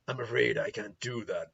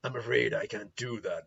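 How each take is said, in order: First: It is said in a deep, gruff voice. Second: The same.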